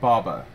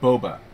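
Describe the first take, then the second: First: The first vowel sounds like 'ah'. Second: The first vowel sounds like 'oh'. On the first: The speaker calls it wrong. "Not Baba" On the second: The speaker calls it right. "So Boba. Should be Boba Fett"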